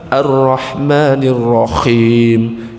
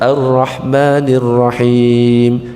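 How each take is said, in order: First: The h in Rahim is a scraping kh sound. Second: The h in Rahim is a smooth throat sound. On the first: God is most melodious. "Diganti kha" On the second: God is most merciful. "yang maha pengasih maha penyayang"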